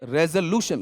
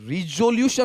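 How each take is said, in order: First: The first syllable has an 'eh' vowel. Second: The first syllable has an 'ee' vowel. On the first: The speaker calls it right. "उच्चारण, रेजोल्यूशन" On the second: The speaker calls it wrong. "रिजोल्यूशन नहीं"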